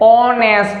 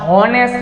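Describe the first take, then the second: First: The word begins directly with a vowel sound. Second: The word begins with an audible h sound. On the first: The speaker calls it right. "એચ છે ને silent કરવો પડે" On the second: The speaker calls it wrong. "હોનેસ્ટ નહીં"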